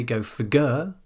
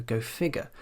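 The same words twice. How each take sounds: First: "figure" wrongly as fi-GURE; stress on second syllable. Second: "figure" as FIG-ure; stress on first syllable. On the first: Teacher shows what we don't say, stress on GURE. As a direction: punch the end of "figure", go fi-GURE. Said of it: "We don't say". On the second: Teacher gives the real phrase, stress on FIG. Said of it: "we go". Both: Shown as a demonstration.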